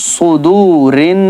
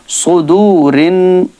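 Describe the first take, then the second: The two takes are said the same way.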